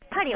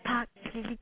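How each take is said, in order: First: It is said with a plain Japanese accent. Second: It is said with a French-style throaty r.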